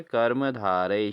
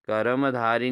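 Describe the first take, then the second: First: कर्मधारय drawn out, ending "-dhaa-ray"; correct pronunciation. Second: कर्मधारी ending in long "ee"; wrong pronunciation. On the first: Teacher answers for students, कर्मधारय slowly with "ray" ending. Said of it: "क्या होता है?". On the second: Teacher shows students the error, कर्मधारी with an "ee" ending. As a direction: say कर्मधारी as "karam-dhaaree". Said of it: "नहीं होता दोस्तों". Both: Shown as a demonstration.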